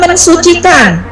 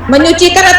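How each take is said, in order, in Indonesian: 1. Bunyi "s" tetap ada setelah n. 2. Bunyi "s" luluh menjadi ny.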